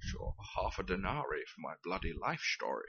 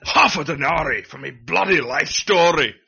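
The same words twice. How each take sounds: First: Soft, unruffled Scottish Connery read, softer; underplayed Connery accent, not outraged; calm Sean Connery. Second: Loud outraged Glaswegian bellow, louder; Billy Connolly rant. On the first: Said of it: "it's the tone of voice. Sean Connery doesn't do outraged". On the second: Acted. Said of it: "I went a bit Billy Connolly".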